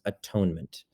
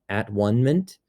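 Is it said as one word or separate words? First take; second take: one word; separate words. First: It is said as one word, pronounced differently. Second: It is said as three separate words. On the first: The single word for being made whole. "together into one word, it becomes atonement. We pronounce it differently" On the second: Being whole or at one again. "all those three syllables"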